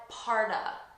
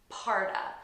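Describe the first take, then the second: First: The word 'of' is reduced to 'uh' and linked. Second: The same.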